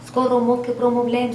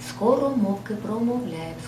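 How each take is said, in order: First: The phrase is spoken at a faster pace. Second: The phrase is spoken at a normal, slower pace. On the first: "А тепер прискорюємо темп" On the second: "Слухайте ще раз"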